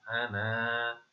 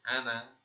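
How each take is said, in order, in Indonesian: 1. Vokal akhirnya dibaca panjang. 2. Vokal akhirnya dibaca pendek. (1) "kalau dibaca berhenti itu dipanjangkan" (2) "kalau dibaca sambung dibaca pendek"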